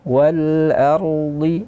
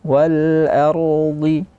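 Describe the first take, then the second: Both takes have the same delivery.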